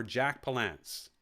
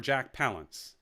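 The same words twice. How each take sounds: First: Palance stressed on the second syllable; alternate pronunciation. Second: Palance stressed on the first syllable; alternate pronunciation. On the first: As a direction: say Palance as puh-LANCE. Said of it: "I can't remember how he says it". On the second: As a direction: say Palance as PAL-unce. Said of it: "I think he says Palance". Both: Shown as a demonstration.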